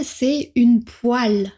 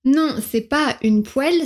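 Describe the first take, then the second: First: "poêle" said as "pwal", rhyming with "mal", a bit slow; southern poêle. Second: "poêle" said as "pwel", with an open e sound like in "belle"; mock northern poêle. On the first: Retold or imitated. School friend correcting the girl, slowly saying "poêle" as "pwal". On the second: Friend mocking the girl's northern "poêle" said as "pwel". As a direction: mimic the girl's "poêle" as "pwel", rising at the end. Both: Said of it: "se sont plus ou moins gentiment moqués".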